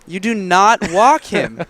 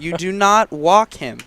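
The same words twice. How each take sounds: First: It is said with extra force and emphasis. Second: It is said at a normal, plain level.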